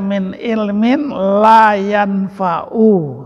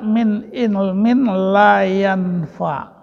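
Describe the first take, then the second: First: The last word ends with a final u vowel. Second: The last word ends without a final vowel. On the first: The speaker calls it right. "Harusnya gini" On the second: The speaker calls it wrong. "dibacanya seperti sukun"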